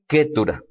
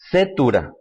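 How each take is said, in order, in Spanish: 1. El nombre empieza con un sonido k. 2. El nombre empieza con un sonido s. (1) "la pronunciación correcta es Ketura" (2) "Al español se lee con el nombre de Setura, con C"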